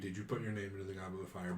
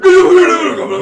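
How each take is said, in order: First: It is asked in a calm, polite tone. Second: It is asked in an aggressive, shouting tone.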